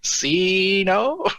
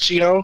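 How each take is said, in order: First: The name is said the American way. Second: The name is said the Italian way.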